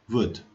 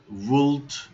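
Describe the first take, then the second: First: The L sound is left silent. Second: The L sound is clearly pronounced. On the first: The speaker calls it right. "the L is silent" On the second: The speaker calls it wrong. "it's not would"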